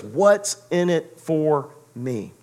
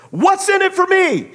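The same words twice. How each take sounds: First: What's in it for me drawn out very slowly, each word weighed; slow and deliberate. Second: High, loud bitter demand; yelling. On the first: Shown as a demonstration. Preacher slowly repeating Ray's question, weighty and deliberate. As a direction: let it land slowly and heavily. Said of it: "he finally gets to the point where he says". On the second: Retold or imitated. Ray answering Shoeless Joe, loud bitter demand. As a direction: hurl the question like an accusation. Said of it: "he's yelling about it".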